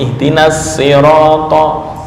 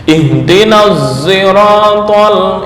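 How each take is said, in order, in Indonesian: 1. Kata ini dimulai dengan bunyi s yang biasa dan ringan. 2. Kata ini dimulai dengan bunyi mirip z, bibir membulat. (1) "membaca dengan sin murni" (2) "ishmam shad berubah menjadi suara za"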